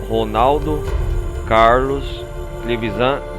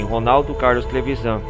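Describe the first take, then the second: First: The name is said more slowly. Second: The name is said at normal speed.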